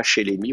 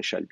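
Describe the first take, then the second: First: Shelemi with three full syllables, she-le-mi; the incorrect reading shelemi, keeping both vowels; wrong form. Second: Shalmi in two syllables, shal-mi, with an a; the correct reading shalmi, with the a sound and no middle vowel; right form. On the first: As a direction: say shelemi as the mistaken form to avoid. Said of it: "vous direz pas shelemi". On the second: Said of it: "vous direz shalmi". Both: Shown as a demonstration.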